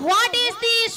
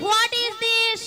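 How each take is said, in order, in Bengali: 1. প্রথম শব্দটি w ধ্বনি দিয়ে শুরু। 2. প্রথম শব্দটি w ধ্বনি দিয়ে শুরু।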